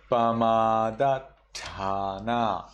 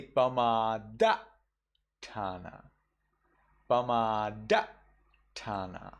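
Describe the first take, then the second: First: Slow Pamadatthana held at the tt; Sri Lankan double consonant. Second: Pamadatthana with the tt cut short; Burmese cut-off. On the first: Teacher showing the held double t. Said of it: "I get stuck for a little moment at the ta". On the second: Teacher giving the Burmese clipped double t. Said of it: "You cut off the last sound". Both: Shown as a demonstration.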